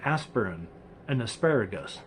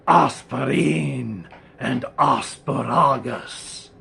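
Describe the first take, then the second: First: The words are pronounced in the ordinary way. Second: The words are pronounced oddly, sounding menacing. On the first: They are just the everyday words. "which is just" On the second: They sound like names of demonic beings. "I've come up with two demonic beings"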